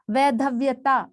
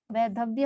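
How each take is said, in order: First: वैधव्यता with an extra "taa" ending; wrong form. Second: वैधव्य ending on "vya"; correct form. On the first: Teacher citing a non-word, वैधव्यता ending in "taa". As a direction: add ता to the end of वैधव्यता. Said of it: "ये कोई शब्द नहीं होता". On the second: Teacher giving the right word, वैधव्य ending in "vya". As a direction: finish वैधव्य at व्य, no "taa". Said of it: "वैधव्य होता है". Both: Shown as a demonstration.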